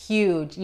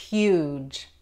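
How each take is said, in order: First: "Huge" said /judʒ/ with glide and a J ending; right pronunciation. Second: "huge" said /ud/, no h and no y glide; wrong pronunciation. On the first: Teacher showing the right way to say huge. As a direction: end "Huge" with a J sound. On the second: Teacher showing the wrong way to say huge. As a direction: drop the start of "huge". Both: Shown as a demonstration. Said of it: "La G en este caso se pronuncia como la J".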